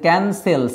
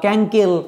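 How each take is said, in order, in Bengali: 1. এটি k দিয়ে শুরু এবং মাঝখানে s আছে। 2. এটি k দিয়ে শুরু এবং মাঝখানে k আছে। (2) "এগুলো হচ্ছে না"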